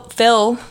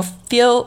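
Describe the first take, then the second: First: Said in the usual way. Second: "feel" with a long ee, like the word feel; southern "feel" in place of fill; "feel" said with a stretched ee vowel; country pronunciation. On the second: Real, not acted. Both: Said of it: "that's my country accent".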